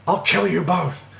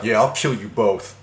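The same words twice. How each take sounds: First: Higher, strained mock yell; mock yelled threat. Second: Said in the usual way. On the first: Caller threatens both while she laughs, imitated high yell. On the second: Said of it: "he takes the phone like".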